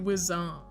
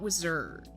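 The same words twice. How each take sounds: First: The final D sound is left off. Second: The final D sound is clearly pronounced. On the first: The speaker calls it right. "You can no longer say the D. You have to say wizard" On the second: The speaker calls it wrong. "not wizard"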